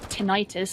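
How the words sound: It is said the North American way.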